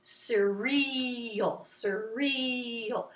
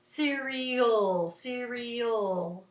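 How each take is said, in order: First: 'surreal' with a long, drawn-out 'ree'; quick first syllable, hold the second; stretched middle syllable. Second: Short start, lingering '-al' in 'cereal'; long last syllable. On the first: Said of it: "if you want to do surreal". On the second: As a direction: draw out the end of 'cereal'. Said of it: "the old part seems a little longer". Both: Shown as a demonstration.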